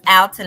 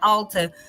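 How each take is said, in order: First: The first syllable sounds like 'al' in 'pal'. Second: The first syllable sounds like the word 'all'. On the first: The speaker calls it right. "it's Alta" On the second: The speaker calls it wrong. "not Alta"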